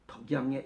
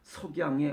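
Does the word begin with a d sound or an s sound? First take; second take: d; s. First: The word begins with a d sound. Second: The word begins with a clear s sound. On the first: This is how the word comes out in slurred speech. The speaker calls it wrong. "나올 때는 덕양에 이렇게 나옵니다" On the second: This is the word the person means to say. The speaker calls it right. "나는 그냥 석양에 어쩌고 저쩌고"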